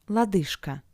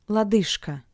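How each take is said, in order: Both takes have the same delivery.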